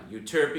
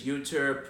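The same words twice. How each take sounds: First: Euterpe said as you-TER-pee; standard pronunciation. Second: Euterpe said as YOU-terp; local mispronunciation. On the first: Guide contrasting street names, euterpe as you-TER-pee. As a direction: stress "TER" in euterpe, three syllables. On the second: Guide showing the street name, euterpe as YOU-terp. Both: Shown as a demonstration. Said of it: "they're all mispronounced".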